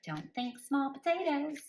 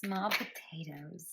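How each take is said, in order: First: Playful high spirit voice; spirit's voice. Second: Said in the usual way. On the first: Retold or imitated. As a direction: repeat it in the voice spirit used. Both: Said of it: "That's how they said it".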